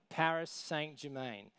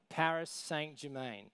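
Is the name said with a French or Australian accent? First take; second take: Australian; Australian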